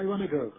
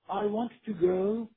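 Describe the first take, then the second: First: The words run together and are shortened. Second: Each word is pronounced fully and separately. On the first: "کلمات میرن توی هم دیگه" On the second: "به جای"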